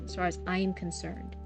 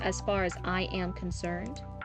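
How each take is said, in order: First: I and am are joined into one contracted syllable. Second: I and am are said as separate full words. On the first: It sounds like natural dialogue. The speaker calls it right. "I apostrophe M" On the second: It sounds like written prose. The speaker calls it wrong. "sounds a bit more like prose or a little bit robotic"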